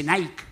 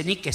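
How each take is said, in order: First: Nike said as "NIKE", rhyming with bike; the corrected Nike, one syllable with "ai"; English-style pronunciation. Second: Nike said as "NEE-keh"; the mistaken Nike, voiced as written in Spanish; Nike with a Spanish i and final e; Spanish-spelling pronunciation. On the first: Retold or imitated. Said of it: "la I se pronuncia ay". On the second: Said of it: "No se dice Nike".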